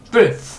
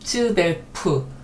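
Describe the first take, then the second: First: The opening 'ts' only lightly brushes the vowel. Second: The opening 'ts' is hit hard and separately. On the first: The speaker calls it right. "앞에 츠는 살짝 스치듯이" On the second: The speaker calls it wrong. "우리 성격 같아서는 딱 츠벨프"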